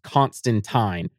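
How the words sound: The name is said the British way. "because Constantine is British, it is pronounced Constantine"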